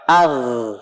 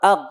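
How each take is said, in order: First: The final consonant flows on continuously. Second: The final consonant is cut off abruptly. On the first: The speaker calls it right. "Mengalir dia suaranya" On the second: The speaker calls it wrong. "bukan ag"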